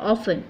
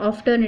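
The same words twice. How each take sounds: First: "often" said as "off-en"; silent T. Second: "often" said as "off-ten"; T wrongly sounded. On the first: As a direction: drop the T in "often". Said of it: "it is often". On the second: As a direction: pronounce the T in "often". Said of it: "it is not often". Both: Shown as a demonstration.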